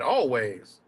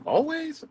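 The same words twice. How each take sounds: First: Said in the usual way. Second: "Always" thrown up high in disbelief; incredulous quote. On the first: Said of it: "That motherfucker said". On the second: Retold or imitated. Vlogger quoting Zach's word back, high and incredulous. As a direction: repeat "Always" in a high mocking question. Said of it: "But you said".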